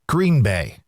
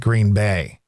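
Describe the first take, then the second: First: The stress falls on the word Green. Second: The stress falls on the word Bay. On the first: The speaker calls it wrong. "the emphasis is not on green" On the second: The speaker calls it right. "it's on bay"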